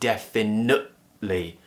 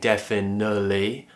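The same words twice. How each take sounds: First: The T is replaced by a sharp glottal stop. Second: The T is dropped with no stop at all. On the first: "I'm cutting the sound out" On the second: "just removing the T"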